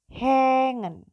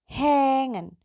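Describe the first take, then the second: Both takes have the same delivery.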